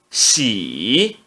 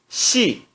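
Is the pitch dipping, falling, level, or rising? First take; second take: dipping; falling. First: The pitch dips low then rises. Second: The pitch falls sharply from high. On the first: "No terceiro tom" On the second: "E no quarto tom"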